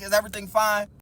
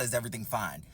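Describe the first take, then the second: First: Said in the usual way. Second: Low, muted echo of the question; dropped-pitch, dismissive repeat; deadpan echo. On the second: Retold or imitated. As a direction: throw the question back, low and unimpressed. Throwing waitress's question back.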